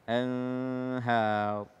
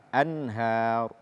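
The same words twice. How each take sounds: First: The voice is held on the n before h. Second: The n flows straight into the h. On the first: The speaker calls it wrong. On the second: The speaker calls it right.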